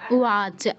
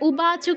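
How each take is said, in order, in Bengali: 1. মাঝের ব্যঞ্জনবর্ণটি একটি নরম w ধ্বনি। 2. মাঝের ব্যঞ্জনবর্ণটি একটি কঠিন b ধ্বনি। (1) "এটা অন্তস্থ ব আছে" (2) "উবাচ কিন্তু কেউ বলবো না"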